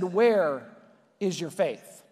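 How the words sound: It is said softly in a loving tone.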